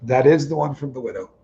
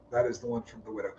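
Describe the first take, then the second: First: Said in the usual way. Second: Softer, repeating "That is the one from the widow" under the breath; a soft musing repeat; quiet echo. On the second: Real, not acted. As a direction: murmur the line back to yourself, much softer. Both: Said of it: "repeats line, second quieter".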